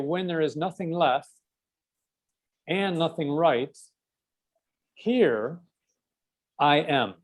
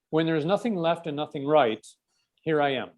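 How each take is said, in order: First: The sentence is spoken slowly. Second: The sentence is spoken quickly. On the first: "if I slow it down" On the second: "if I say this fast"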